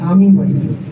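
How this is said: The stress falls on the word আমি. I, not someone else, will go home. "আমি মনে হয় মনে হয় সে নয়"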